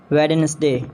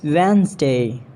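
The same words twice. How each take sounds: First: "Wednesday" as WED-nes-day; mispronounced Wednesday. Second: "Wednesday" as WENZ-day; British pronunciation. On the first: Acted. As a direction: sound the D in "Wednesday". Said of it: "not Wednesday". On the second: Shown as a demonstration. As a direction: silent first D in "Wednesday". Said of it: "It's Wednesday".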